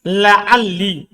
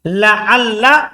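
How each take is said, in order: First: The last lam ends in an i vowel. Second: The last lam ends in an a vowel. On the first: "boleh kasro" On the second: "boleh di fathah"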